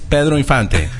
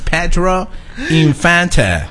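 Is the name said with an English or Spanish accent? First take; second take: Spanish; English. First: The name is said with a Spanish accent. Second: The name is said with an English accent. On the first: "en español es" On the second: "En inglés es"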